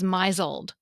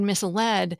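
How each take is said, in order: First: It is said as one word, my-zuld. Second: It is said as two parts, miss-led. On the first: This is a misreading from only seeing it written. The speaker calls it wrong. "is misled" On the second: This is the word as it is meant. The speaker calls it right. "people think the word misled"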